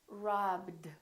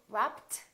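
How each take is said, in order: First: The ending is said as a D sound. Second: The ending is said as a T sound. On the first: The speaker calls it right. "So this one becomes a D" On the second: The speaker calls it wrong. "this one is not a T"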